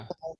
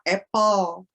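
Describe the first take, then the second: First: It is said in a northern British accent. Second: It is said in an American accent.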